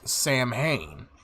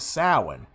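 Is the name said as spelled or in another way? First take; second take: as spelled; another way. First: The name is said just as it is spelled. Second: The name is not said as it is spelled. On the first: "It's spelled out as" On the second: "its true sounding of the word is"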